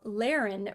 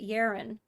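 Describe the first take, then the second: First: The name begins with an L sound. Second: The name begins with a Y sound.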